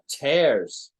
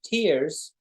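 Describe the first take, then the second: First: The vowel sounds like the one in 'stairs'. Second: The vowel sounds like the one in 'ears'. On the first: Rips in fabric. "but tears" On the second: Drops of water from the eyes. "it's no longer pronounced tears"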